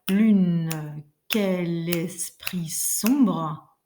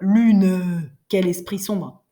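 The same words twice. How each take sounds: First: The final e of lune is light but heard. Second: The final e of lune is hit very hard. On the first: The speaker calls it right. "on doit tout de même l'entendre dans le rythme" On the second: The speaker calls it wrong. "appuyer dessus comme des fous"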